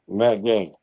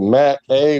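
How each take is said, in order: First: The surname is said with its starting G. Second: The surname is said without its starting G.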